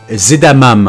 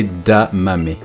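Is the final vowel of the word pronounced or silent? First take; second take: silent; pronounced. First: The final vowel is silent. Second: The final vowel is pronounced. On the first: The speaker calls it wrong. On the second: The speaker calls it right.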